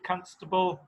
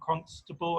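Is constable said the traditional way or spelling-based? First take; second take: traditional; spelling-based. First: It uses the older, traditional pronunciation. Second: It uses a pronunciation that follows the spelling. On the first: "it used to be constable" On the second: "Now it's become constable, I guess, for some people"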